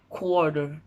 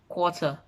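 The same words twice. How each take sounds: First: It is said in a non-British, everyday accent. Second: It is said in a British accent. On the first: "in the English slang" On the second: "I say it best in a British accent"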